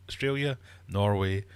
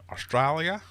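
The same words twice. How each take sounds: First: Said in the usual way. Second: "Australia" said Aussie style, high and loud; Australian accent. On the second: Pretend. Quizmaster reading the answer options, hammed-up Australian accent. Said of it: "Definitely wasn't trying to do an Australian accent".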